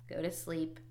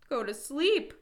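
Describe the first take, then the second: First: Said in the usual way. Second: High, loud storybook shout. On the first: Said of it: "Toad wrote on the ground". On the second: A narrator's reading. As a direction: Toad exclaiming in sudden realization. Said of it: "shouted Toad".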